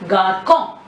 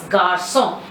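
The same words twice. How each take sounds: First: Garçon said gar-kon with a K sound; garçon with hard K. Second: Garçon said gar-son with an S sound; garçon with soft S. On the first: Teacher showing garçon without cedille, hard K. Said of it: "If you don't put cedille there". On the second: Teacher showing garçon with a soft S sound. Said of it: "you use the cedille to sound C as S". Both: Shown as a demonstration.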